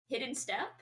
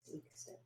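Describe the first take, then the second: First: Said in the usual way. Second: Whispered spell name; whispering. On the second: Acted.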